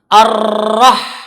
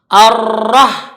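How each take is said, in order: The two takes are said the same way.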